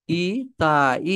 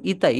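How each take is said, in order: First: "ইতাই" drawn out very slowly, syllable by syllable; "ইতাই" in slow, separated syllables; sounded out. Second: Said in the usual way. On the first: Shown as a demonstration. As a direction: stretch each vowel of "ইতাই" for learners. Teacher sounds out new word.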